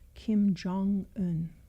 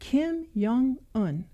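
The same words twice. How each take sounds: First: The middle syllable sounds like 'jong'. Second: The middle syllable sounds like 'yoong'. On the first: The speaker calls it right. "everybody else pronounce it Jung and then spell it J O N G" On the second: The speaker calls it wrong. "like think Carl Jung"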